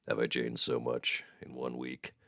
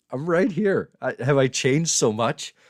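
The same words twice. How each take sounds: First: Low, soft seductive voice; mock sexy voice. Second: High, loud, incredulous protest; mock indignant protest. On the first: Streamer proving his sexy sick voice remains, playfully sultry. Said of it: "Sick, sexy voice [name] is gone". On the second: Real, not acted. Streamer answering viewer who says he's changed, mock indignant. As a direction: raise voice and pitch in mock offence.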